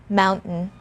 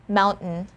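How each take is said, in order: The two takes are said the same way.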